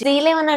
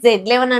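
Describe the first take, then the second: First: The letter is said as zee. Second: The letter is said as zed. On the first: "జీ eleven అంటారా" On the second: "జెడ్ eleven అంటారా"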